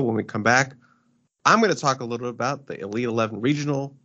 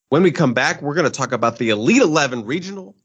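First: It is said in a flat, unenthusiastic way. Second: It is said with more enthusiasm and energy.

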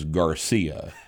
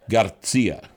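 First: The name is said with a plain English accent. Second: The name is said with a thick Spanish accent. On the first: "No one's name is Garcia on National Public Radio" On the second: "pronounced with a Spanish accent"

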